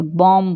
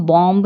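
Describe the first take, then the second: First: बॉम्ब ending on m; बॉम्ब with the final b dropped; silent B. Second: बॉम्ब with a released b at the end; बॉम्ब, final b voiced; sounded B. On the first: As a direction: say बॉम्ब as bom. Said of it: "बॉम्ब बोलते हैं". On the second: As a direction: say बॉम्ब as bom-buh. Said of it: "हम बॉम्ब नहीं बोलते". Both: Shown as a demonstration.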